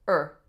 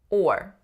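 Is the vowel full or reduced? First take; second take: reduced; full. First: It has a shorter, simpler reduced vowel. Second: It has a full, longer r-colored vowel. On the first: "turned into a slightly shorter and less complex vowel" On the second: "Or is an R-colored vowel"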